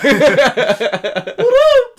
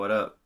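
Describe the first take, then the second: First: It is said in a creepy cartoon voice. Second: It is said in his normal voice.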